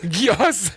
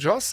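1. Der Name wird auf die übliche deutsche Art ausgesprochen. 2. Der Name wird als Joss ausgesprochen, auf die italienische Art. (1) "In Deutsch auch oft Gios genannt" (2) "Richtig ausgesprochen Joss"

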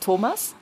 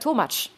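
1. Der Name endet mit einem normalen s-Laut. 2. Der Name endet mit einem tsch-Laut. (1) "Mein Bruder heißt Thomas" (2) "Ich habe gesagt Tomatsch"

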